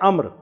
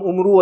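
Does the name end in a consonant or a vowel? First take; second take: consonant; vowel. First: The name ends on the r consonant. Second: The name ends with an added u vowel. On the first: The speaker calls it right. "ये है अम्र" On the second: The speaker calls it wrong. "ये आमतौर पर उर्दू वाले ऐसे पढ़ते हैं, टोटली गलत है"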